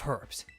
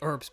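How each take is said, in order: First: The word is said in a non-American way. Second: The word is said the American way. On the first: The speaker calls it wrong. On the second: The speaker calls it right.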